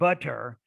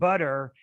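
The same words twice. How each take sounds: First: The middle consonant is a clear T sound. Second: The middle consonant is a soft D-like flap. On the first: "and not butter" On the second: "then you would use the the flap in those instances"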